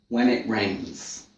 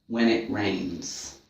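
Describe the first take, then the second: No difference in how they are said.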